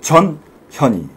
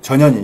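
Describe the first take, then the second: First: The syllables are separated by small pauses. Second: The syllables run together without any pauses. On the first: The speaker calls it right. "띄어서 해야 돼요. 전현희 이렇게 해야 돼요" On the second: The speaker calls it wrong. "전현희 이렇게 하면 큰일 나요"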